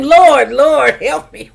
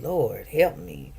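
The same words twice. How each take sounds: First: Louder, higher cry of "Lord, Lord, help me"; calling on the Lord. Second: Soft, slow murmured prayer on "Lord, help me."; head down, breathe out "Lord, help me." softly and slowly; quiet prayer. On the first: Shown as a demonstration. Urging listeners to call on God, a louder crying out. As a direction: call his name out boldly. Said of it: "just call his name". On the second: Retold or imitated. Head bowed before the judge, a soft slow prayer. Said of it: "I put my head down and I just said".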